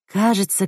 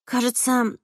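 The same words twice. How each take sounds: First: Said in the usual way. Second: A higher, softer Sandra voice; a hint of Sandra piping up; Sandra's line. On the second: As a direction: voice Sandra lightly and quietly. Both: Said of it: "подала голос Сандра".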